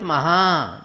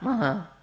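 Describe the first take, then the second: First: The word is said with strong force. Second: The word is said weakly, without force. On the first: The greatness in the word keeps its power. The speaker calls it right. "that Maha should come with Maha" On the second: The greatness in the word loses its power. The speaker calls it wrong. "not Maha"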